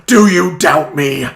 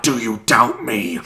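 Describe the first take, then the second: First: Louder retake. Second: Mock imperious. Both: Shown as a demonstration. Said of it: "One, one more go".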